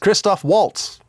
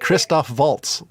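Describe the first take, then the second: First: Waltz begins with a W sound. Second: Waltz begins with a V sound. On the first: The speaker calls it wrong. "everybody else you ask, they say" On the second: The speaker calls it right. "the only thing I can say correctly"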